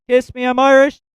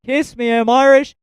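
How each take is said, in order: Both takes have the same delivery.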